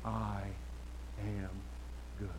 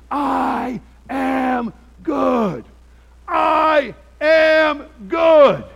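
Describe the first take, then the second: First: Softer, lower, words spaced far apart like a distant voice; faint fading yell. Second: Very slow, high, loud shout, each word stretched; retold furious yell. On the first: Retold or imitated. Preacher recalling the yelling heard from down the street, faint and spaced out. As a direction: let it trail off as you walk away. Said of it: "he's still screaming on his lawn". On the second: Preacher acting out the officer yelling on his lawn, drawn-out shout. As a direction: bellow it like the angry man on his lawn. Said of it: "And he was yelling".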